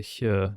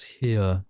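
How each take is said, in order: First: HERE said the speaker's Welsh-accented way; own accent. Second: HERE with a clear ee and sounded R, louder; unaccented HERE. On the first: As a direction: say HERE as 'hyuh', no hard R. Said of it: "'Cause of my accent". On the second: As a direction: say HERE as 'hee-r'. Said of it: "not here". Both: Shown as a demonstration.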